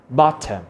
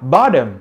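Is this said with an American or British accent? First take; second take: British; American. First: It is said with a British accent. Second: It is said with an American accent.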